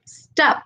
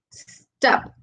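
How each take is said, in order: First: Said in the usual way. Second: "stop" broken into a held S, then TOP; sounds split apart. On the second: Shown as a demonstration. Teacher dividing a word for students, "stop" said as s-top. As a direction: draw out the S of "stop" before landing on TOP. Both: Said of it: "en la sílaba top, que es la segunda".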